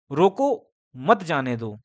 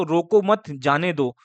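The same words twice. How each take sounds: First: "रोको", clear break, then "मत जाने दो"; pause after रोको. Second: "रोको मत", short break, then "जाने दो"; group "रोको मत" together, pause before "जाने दो"; pause after मत. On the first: Teacher showing how arrangement changes meaning, pause after रोको. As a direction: stop after "रोको", run "मत जाने दो" together. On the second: Teacher recalling a childhood lesson on arrangement, pause after मत. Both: Shown as a demonstration. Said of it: "arrangement होता है".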